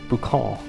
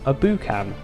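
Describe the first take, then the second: First: It is said with a put-on French accent. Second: It is said with a plain English accent.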